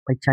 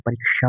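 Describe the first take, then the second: First: परीक्षा said with chh for ksh; mispronounced cluster. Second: परीक्षा with a clear k plus sh; correct cluster. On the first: Teacher rejects the common error, परीक्षा with a chh sound. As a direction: say परीक्षा as "pareechha". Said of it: "नहीं होता है". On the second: Teacher gives the proper form, परीक्षा with ksh. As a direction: say परीक्षा as "pareeksha". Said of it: "होता है". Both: Shown as a demonstration.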